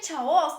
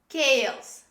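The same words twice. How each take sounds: First: The word begins with a ch sound. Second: The word begins with a k sound. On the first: The speaker calls it wrong. "Don't say chaos. This is not chaos" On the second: The speaker calls it right. "This is chaos"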